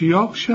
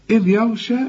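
First: يغشى as dark "yawgh-sha"; wrong heavy ya. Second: يغشى with thin "ya", heavy gh; light ya. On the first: Teacher shows what not to say, wrong heavy ya. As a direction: thicken the ي of يغشى. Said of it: "ما تقولش". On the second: Teacher models the verse, light ya. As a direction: keep the ي of يغشى light before the غ. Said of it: "لأنك انت خدت الياء". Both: Shown as a demonstration.

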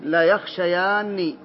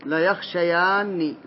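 First: Teacher's slow model of لا يخشيان for a student; slow model answer. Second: Teacher repeats لا يخشيان slowly to confirm it. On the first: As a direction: stress لا in لا يخشيان and draw the phrase out very slowly. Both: Shown as a demonstration. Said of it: "أبا المنذر".

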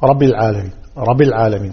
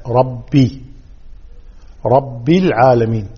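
First: رب العالمين run together, short swallowed i after rabb; unclear kasra. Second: رب العالمين with a clear, held "rabbi"; clear kasra. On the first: (كسرة غير واضحة في رب العالمين) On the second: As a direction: sound out the i after رب in رب العالمين. (إظهار كسرة الباء في رب العالمين) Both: Shown as a demonstration. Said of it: "ما يوضح الكسر".

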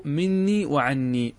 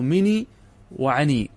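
First: "مني وعني" with double n: min-nii wa-'an-nii; doubled nun. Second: "مني وعني" as mi-nii wa-'a-nii, single n; lightened nun. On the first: Teacher naming the words that were lightened, "مني وعني" in full doubled form. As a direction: hold the n in both "مني" and "عني". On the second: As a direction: keep the n short in "مني" and "عني". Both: Shown as a demonstration. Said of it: "أنهم خففوا مني".

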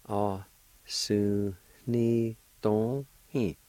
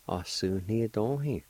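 First: Slow, drawn-out teaching pace; slow and careful; very slow demo. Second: Said in the usual way. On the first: Shown as a demonstration. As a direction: stretch every syllable out for the learner. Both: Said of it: "It's pronounced like this".

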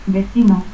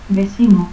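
First: Said in the usual way. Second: Vecino as "vesino"; seseo. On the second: Shown as a demonstration.

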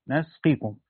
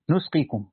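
First: نسقيكم with "a" after the nun; first syllable of نسقيكم is "nas"; fatha on the nun. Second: نسقيكم with "u" after the nun; first syllable of نسقيكم is "nus"; damma on the nun. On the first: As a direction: say نسقيكم as "nasqikum". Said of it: "بفتح النون ها هنا". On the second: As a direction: say نسقيكم as "nusqikum". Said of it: "والباقون بضمها". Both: Shown as a demonstration.

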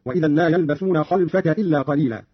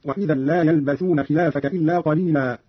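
First: خلفك as "khalfaka", lam vowelless, no long a; Qalun's short khalfaka. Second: Said in the usual way. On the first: Shown as a demonstration. Teacher demonstrating Qalun's reading, خلفك as "khalfaka" without lengthening. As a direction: say خلفك short, open kha and closed lam. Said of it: "بفتح الخاء وإسكان اللام دون مد". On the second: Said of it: "قرأ قالون بفتح الخاء".

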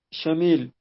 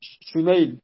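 First: "شميل" with a long final ee, as "Shamiil"; misread name. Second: "شميل" with an ay diphthong, as "Shumayl"; corrected name. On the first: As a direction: say "شميل" as "sha-MEEL", a reading slip. Reader misreads name, then corrects. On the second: Reader repeats the corrected name. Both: Real, not acted.

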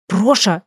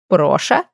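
First: Short, sharp reprimand with falling tune; stern, cut-short name call; shushing rebuke. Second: Name repeated with a rising, puzzled tune; incredulous little query; questioning echo. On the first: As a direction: hush the misbehaving pet. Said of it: "шикнула я на фамильяра". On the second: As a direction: echo it back in amused disbelief. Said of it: "переспросила нимфа". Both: A narrator's reading.

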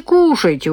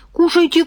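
First: Falling, pressing repeat; insistent. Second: High, eager offer; coaxing. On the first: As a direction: press the offer home. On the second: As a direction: urge her to eat, pitched up. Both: Acted. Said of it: "угощал парень".

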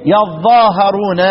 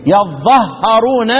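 First: يظاهرون with the long ظا, slowly; long reading. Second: يظهرون with the doubled ظ, slowly; shortened reading. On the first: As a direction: recite يظاهرون drawn out. (قراءة يظاهرون بالمد) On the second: (قراءة يظهرون ببطء) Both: Shown as a demonstration. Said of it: "يقرؤون إيه؟".

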